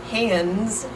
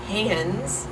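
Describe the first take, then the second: The two takes are said the same way.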